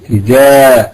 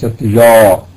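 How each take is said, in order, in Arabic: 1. الحرف الأول مرقق وخفيف. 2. الحرف الأول مفخم وثقيل.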